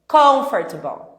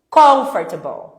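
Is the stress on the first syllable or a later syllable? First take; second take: first syllable; first syllable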